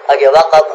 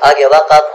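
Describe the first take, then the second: No difference in how they are said.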